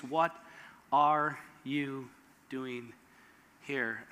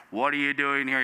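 First: Soft, slow, low hushed question; still small voice. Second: A low, grave question; low voiced question. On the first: Retold or imitated. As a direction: ask it barely above a breath. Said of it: "in the still small voice". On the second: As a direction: ask it deep and grave. God's question replayed.

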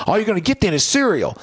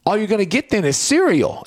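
First: Retold threat, higher pitch; playful dad threat; mock threat. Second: Higher, half-joking menace; hammed-up threat to a kid; mock threat. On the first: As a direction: repeat the cereal threat, same menace. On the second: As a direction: threaten with breakfast, playfully. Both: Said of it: "I said it like a threat".

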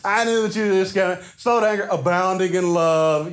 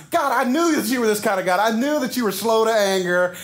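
First: Mock the praise back at God; snarky. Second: Sarcastic, higher mocking tone; snarky. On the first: Jonah snarkily repeating God's kindness. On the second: Jonah snarkily throwing God's mercy back at him. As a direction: sneer the praise back at God. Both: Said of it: "that little snarkiness in there".

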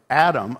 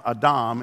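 First: Said in the usual way. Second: "Adam" said the Hebrew way, stressed on the second syllable; Hebrew pronunciation. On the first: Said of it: "we always think of Adam". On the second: Shown as a demonstration. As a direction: say "Adam" as ah-DAHM. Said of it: "Adam in Hebrew".

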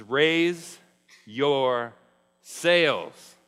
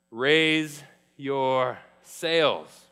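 First: Each word hit loud with a pause between; loud command. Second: Slow repeat. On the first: Acted. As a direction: call out Raise, your, sails word by word. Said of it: "He says". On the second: Shown as a demonstration. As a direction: Raise your sails drawn out very slowly. Repeats the phrase slowly.

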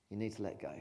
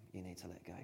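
First: Said in the usual way. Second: Much softer, tender; hushed, gentle urging; soft repeat. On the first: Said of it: "repeated line". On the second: Shown as a demonstration. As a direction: say it gently, almost to yourself. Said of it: "repeated softer".

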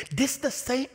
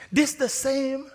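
Both takes have the same delivery.

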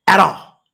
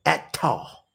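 First: Said in the usual way. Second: "Act tall" softly, with a hard T opening the second word; country pronunciation. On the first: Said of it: "like my granddaddy would say". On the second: Retold or imitated. Preacher quoting granddaddy's country tongue, country pronunciation of "Act tall". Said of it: "That's that country tongue".

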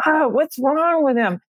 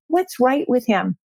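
First: Raised-pitch retold exasperation; higher, lightly huffy imitation of one's own grumbling; mock irritation. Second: Mild, settled self-questioning; retold change of heart, lightly voiced; reconsidering, retold. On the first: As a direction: act out mild annoyance at a husband. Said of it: "I was really irritated with him". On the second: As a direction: act out stopping to think better of him. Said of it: "then I stopped and I said".

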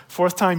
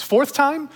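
First: "Fourth time" said again through a laugh; laughing repeat. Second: Fourth time with a high, loud jump on "time"; emphatic fourth time. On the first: Real, not acted. Laughing repeat of own line. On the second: Acted. Punchline on the rabbis' limit.

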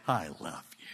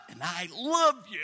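First: Very low, hushed reply; tender whisper. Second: LOVE pushed up high and strong; insistent love. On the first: God answering the broken man, tender whisper. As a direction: answer softly, almost all breath. God's quiet answer to protest. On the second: God answering the messed-up man, insistent stress on "love". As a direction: lean hard on "love", voice raised. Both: Acted.

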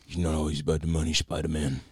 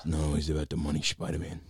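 First: Lightly voiced menacing crime boss; calm menacing drug lord. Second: Calm menacing drug lord. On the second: Retold or imitated. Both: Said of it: "I loved the Kingpin voice".

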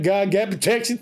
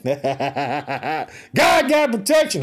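First: Said in the usual way. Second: Very slow, stretched-out shout; slow hollered preacher proclamation; drawn-out shout. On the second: Shown as a demonstration. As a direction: stretch every word and call it out. Repeats line drawn out, shouted.

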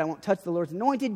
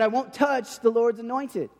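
First: Said in the usual way. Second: The same vow said again higher, leaning on it; "I won't touch the Lord's anointed" lifted higher and stressed; emphatic repeat. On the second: Retold or imitated. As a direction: repeat it so it sinks in.

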